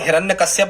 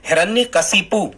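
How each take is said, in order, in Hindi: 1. नाम kashyap की ध्वनियों से खत्म होता है। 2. नाम kashipu की ध्वनियों से खत्म होता है। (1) "फिर ये हिरण्यकश्यप वाला" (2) "आप ऐसा ही इसका उच्चारण करें"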